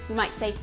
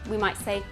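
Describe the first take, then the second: Both takes have the same delivery.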